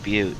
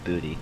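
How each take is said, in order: First: It is said as one syllable, 'byoot'. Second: It is said as two syllables, 'booty'. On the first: The speaker calls it right. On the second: The speaker calls it wrong.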